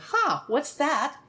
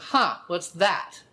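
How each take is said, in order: First: It sounds open and curious. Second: It sounds tight and judgmental.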